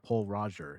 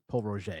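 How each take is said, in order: First: The name is pronounced as English spelling suggests. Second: The name is pronounced with French sounds. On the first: The speaker calls it wrong. "people say, "Oh, I'm going to pick up Paul Roger."" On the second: The speaker calls it right. "It's Paul Roger"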